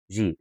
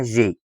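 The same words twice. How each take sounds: First: "جي" ending in ee; English letter G. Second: "جي" as French G, zhé; French letter G. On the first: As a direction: say "جي" as jee, the English letter name. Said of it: "بالانجلش اسمها جي". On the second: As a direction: say "جي" ending in ay, not ee. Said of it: "بالفرنساوي اسمها جي". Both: Shown as a demonstration.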